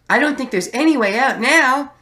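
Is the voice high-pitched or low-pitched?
high-pitched. It is said in a very high-pitched voice. The speaker calls it right. "I've settled on just doing a super high-pitched voice"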